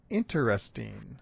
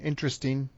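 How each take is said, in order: First: The word is over-enunciated, with an extra syllable. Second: The word is said casually, with fewer syllables. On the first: "maybe hypercorrected sounding, or like you're trying to over-enunciate" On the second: "So common pronunciation"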